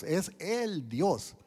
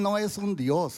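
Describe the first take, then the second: First: "el" drawn out slowly before "Dios"; slow, weighty emphasis on "el"; stress on EL. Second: "un" said high and loud, as the rejected word; raised, emphatic denial on "un"; stress on UN. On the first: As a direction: stretch "el" to mark the only one. Corrects un Dios to el Dios. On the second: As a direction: set up "un" for correction, pitched up. Contrasts a god with the God. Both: Real, not acted.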